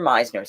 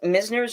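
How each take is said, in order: First: The first vowel sounds like the vowel in 'my'. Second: The first vowel sounds like the vowel in 'miss'. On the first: This is how other people online say it. "other people online say Meisner" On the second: This is how the speaker has always said it. "I've always pronounced it Misners"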